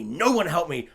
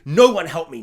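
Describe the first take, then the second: First: Said in the usual way. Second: Loud, aggressive mock shout. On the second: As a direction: imitate her lashing out at the family. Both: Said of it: "so violently, aggressively".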